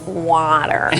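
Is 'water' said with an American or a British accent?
American. Water is said with an American accent. The child insists on her father's accent.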